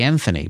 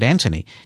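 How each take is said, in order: First: It is said the non-British way. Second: It is said the British way.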